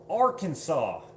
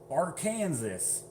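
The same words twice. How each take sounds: First: The name is said the local way. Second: The name is sounded out as spelled. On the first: "I'm from I'm from Arkansas" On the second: "as people who try to read it"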